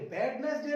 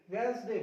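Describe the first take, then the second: First: वेडनेसडे with every letter sounded; three syllables, first D voiced in वेडनेसडे; wrong pronunciation. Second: वेडनेसडे said as "Wensday"; "Wens-day" in two syllables for वेडनेसडे; silent D. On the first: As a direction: say वेडनेसडे wrongly as "Wed-nes-day". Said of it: "नहीं होता". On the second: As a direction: say the first वेडनेसडे without its first D. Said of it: "वेडनेसडे नहीं होता". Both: Shown as a demonstration.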